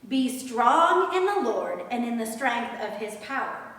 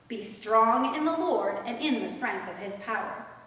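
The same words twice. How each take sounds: The two takes are said the same way.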